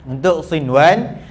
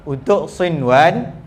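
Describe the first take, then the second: Both takes have the same delivery.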